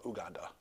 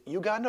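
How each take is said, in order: First: Uganda said "oo-GAN-duh"; no y-glide at the start of Uganda; alternative pronunciation. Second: Uganda said "you-GAN-duh"; alternative pronunciation. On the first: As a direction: open Uganda with a pure "oo". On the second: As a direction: open Uganda with a "you" sound. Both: Shown as a demonstration. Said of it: "is it Uganda or Uganda".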